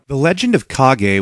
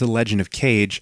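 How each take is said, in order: First: The last word is said as two syllables, kah-geh. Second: The last word is said as one syllable, cage. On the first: The speaker calls it right. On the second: The speaker calls it wrong.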